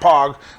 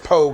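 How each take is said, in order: First: The vowel is short, rhyming with log. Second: The vowel is long, rhyming with rogue. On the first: The speaker calls it wrong. "not pog, like the fucking game" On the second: The speaker calls it right. "you still pronounce it pogue"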